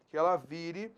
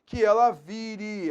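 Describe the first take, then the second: First: Said in the usual way. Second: "vire" slowed and louder to highlight the verb; stress on vire. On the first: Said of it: "presente subjuntivo". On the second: Shown as a demonstration. Teacher highlighting "vire" for the class, slow and emphatic. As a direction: lean on "vire" slowly as a teacher pointing it out. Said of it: "é o verbo virar".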